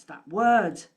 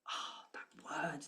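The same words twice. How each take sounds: First: Said out loud and punched; loud emphatic. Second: Breathy whispered aside. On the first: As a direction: declare the word firmly, louder. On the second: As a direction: whisper it as if letting out a secret. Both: Shown as a demonstration.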